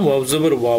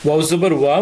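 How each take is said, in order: No difference in how they are said.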